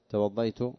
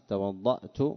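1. يأتي صوت 'y' بعد الحرف المشدّد. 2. تأتي همزة الوقف بعد الحرف المشدّد. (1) "قال لغية، معناها اللغة ضعيفة" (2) "أما الهمز توضأت، فهذه هي اللغة الفصحى"

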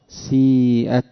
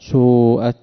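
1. الحركة الأولى كسرة خالصة. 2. الحركة الأولى ضمة خالصة. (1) "ليس كسرا خالصا" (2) "ولا ضما"

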